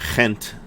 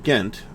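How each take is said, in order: First: The first sound is a throaty, rasping g. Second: The first sound is a plain hard g.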